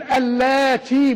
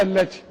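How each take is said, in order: First: اللاتي said slowly with a long drawn "laa"; long alif. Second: اللاتي said quickly with a short "le" and no long alif; a quick اللاتي, nothing stretched; as written. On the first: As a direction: lean into the alif in اللاتي and hold it. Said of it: "بالألف". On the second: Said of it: "مكتوبة". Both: Shown as a demonstration.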